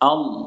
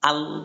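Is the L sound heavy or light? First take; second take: heavy; light. First: The L sound is heavy and full. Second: The L sound is light and thin. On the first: The speaker calls it right. "লামকে পোর বা মোটা করে পড়তে হয়" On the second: The speaker calls it wrong. "এটা পড়া যাবে না"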